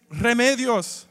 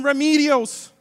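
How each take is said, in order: First: "Remedios" with rolled R, "reh-MEH-dyos"; slow Spanish "Remedios", "reh-MEH-dyos"; Spanish pronunciation. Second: "Remedios" as English "ruh-MEE-dee-ohs"; loud Americanized "Remedios", "ruh-MEE-dee-ohs"; anglicized pronunciation. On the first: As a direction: roll the R in "Remedios", short eh. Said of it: "It's Remedios". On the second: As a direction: say "Remedios" with no rolled R and a long ee. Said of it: "my last name is not". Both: Shown as a demonstration.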